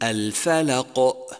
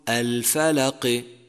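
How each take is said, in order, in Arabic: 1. تتبع القاف الأخيرة همزة. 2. تتبع القاف الأخيرة كسرة. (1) "وكأنك أتبعته بهمزة" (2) "وكأنك حركته بكسرة"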